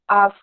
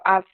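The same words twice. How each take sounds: First: The vowel is long and drawn out. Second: The vowel is short. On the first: The speaker calls it right. "it is a long vowel" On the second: The speaker calls it wrong. "We usually say ask"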